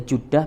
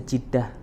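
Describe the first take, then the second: First: The first vowel is an u sound. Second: The first vowel is an e sound. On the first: "Jadi bisa Judah" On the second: "bisa Jeddah"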